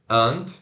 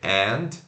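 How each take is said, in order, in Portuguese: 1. A vogal é um schwa reduzido. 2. A vogal é um 'a' aberto e pleno. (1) "quando tá unstressed, temos o schwa N D" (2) "se pronuncia o, o A E N D"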